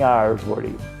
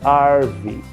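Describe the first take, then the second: First: The word is said in full, three syllables. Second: The word is shortened to two syllables. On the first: The speaker calls it wrong. "não é árvore" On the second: The speaker calls it right. "é arve"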